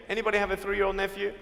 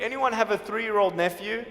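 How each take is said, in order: First: Quick, quieter aside to the crowd; fast and softer. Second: Said in the usual way. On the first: Real, not acted. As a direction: rattle off the repeat quickly. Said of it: "repeated fast and softer". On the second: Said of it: "asks audience twice".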